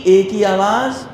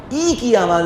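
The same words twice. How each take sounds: First: اے as "ay"; wrong kasra sound. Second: ای as long "ee"; Arabic kasra sound. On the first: Teacher offering the wrong choice, "ay" sound. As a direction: say اے with an "ay" vowel. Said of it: "اے کی آواز نکلنی نہیں چاہیے". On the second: Teacher quizzing on kasra, "ee" sound. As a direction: stretch ای as a pure "ee". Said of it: "ای کی آواز نکلے گی". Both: Shown as a demonstration.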